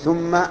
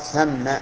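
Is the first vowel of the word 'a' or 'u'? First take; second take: u; a. First: The first vowel is u, as in thumma. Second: The first vowel is a, as in thamma. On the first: The speaker calls it wrong. "ومن الخطأ الشائع بين الناس أن يضم الساء من ثم" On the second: The speaker calls it right. "وظرف مكان أن يقال ثم"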